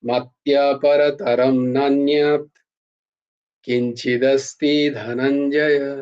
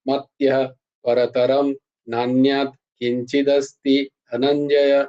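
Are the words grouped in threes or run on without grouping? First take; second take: threes; no grouping. First: The words are grouped in threes with pauses. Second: The words run on without grouping pauses. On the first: The speaker calls it right. "এইরকম" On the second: The speaker calls it wrong. "আমি এরকম বলছি না"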